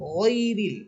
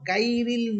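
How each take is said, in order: First: The first consonant is heavy and full. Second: The first consonant is light and thin. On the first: The speaker calls it right. "গইন হরফ মোটা করে" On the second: The speaker calls it wrong. "এই গইন হরফকে যদি চিকুন করে পড়ি"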